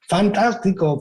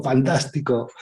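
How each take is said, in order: First: Higher, delighted call into the cave; the boy shouting something nice into the cave; child calling out happily. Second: The cave echo returning the nice word; mock echo. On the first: Retold or imitated. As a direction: call it out with joy. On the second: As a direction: echo it back gently. The echo answers back.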